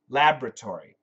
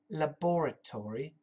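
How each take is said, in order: First: It is said with an American pronunciation. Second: It is said with a British pronunciation. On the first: "Americans say laboratory" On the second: "The British say laboratory"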